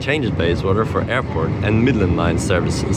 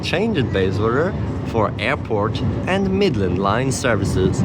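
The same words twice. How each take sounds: First: The voice is flat with little pitch change. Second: The voice is lively with varied pitch. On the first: "Like much more like monotone" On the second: "on this announcement, it's like"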